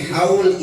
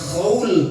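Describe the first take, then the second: First: It begins with a plain, soft h sound. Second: It begins with a throaty, rasping kh sound. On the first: It means the anniversary of a year. The speaker calls it right. "Haul itu tiga huruf, ha, waw, lam" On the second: It means something different. The speaker calls it wrong. "Kagak boleh dibaca khaul"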